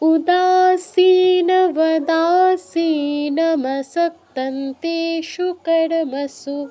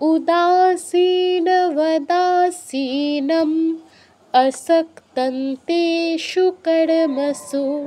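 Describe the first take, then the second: First: The line runs straight through without a pause. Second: There is a pause after asinam in the middle. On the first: "যদি দ্রুত বলতে পারি, শ্বাস না আটকে যায়" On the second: "থামলে কি হবে?"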